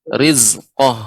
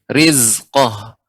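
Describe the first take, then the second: First: The middle consonant sounds like a 'z'. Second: The middle consonant sounds like a 'z'.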